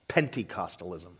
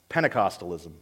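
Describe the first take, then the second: First: The word begins with the sound 'Pente'. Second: The word does not begin with 'Pente'.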